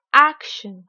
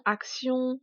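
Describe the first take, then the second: First: "action" in English, AK punched very loud; teacher's over-stressed "action", loud first syllable; exaggerated English stress. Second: Said in the usual way. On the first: Shown as a demonstration. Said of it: "je vais délibérément exagérer". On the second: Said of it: "uniquement prononcés en français".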